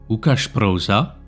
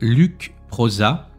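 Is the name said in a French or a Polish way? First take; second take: Polish; French. First: The name is said with Polish pronunciation. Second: The name is said with French pronunciation.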